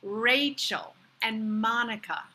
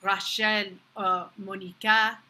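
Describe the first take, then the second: First: "Rachel and Monica" as RAY-chul and MAH-nih-kuh; first-syllable stress on "Rachel" and "Monica", American vowels; American pronunciation. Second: "Rachel or Monica" in French, ra-SHEL, mo-nee-KA; French r and final stress on "Rachel" and "Monica"; French pronunciation. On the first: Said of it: "You see". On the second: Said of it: "you don't see". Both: Shown as a demonstration.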